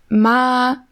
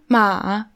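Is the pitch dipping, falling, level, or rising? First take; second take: level; dipping. First: The pitch stays level throughout. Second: The pitch dips down then goes up. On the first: "einmal gleichbleibend" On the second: "also so runter, hoch"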